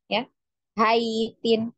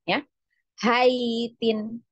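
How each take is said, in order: The two takes are said the same way.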